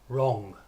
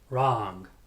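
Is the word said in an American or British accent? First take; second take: British; American. First: It has a British rounded 'oh' vowel. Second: It has an American open 'ah' vowel.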